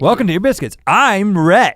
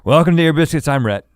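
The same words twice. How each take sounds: First: The greeting sounds more excited and energetic. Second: The greeting sounds flat and unenthusiastic.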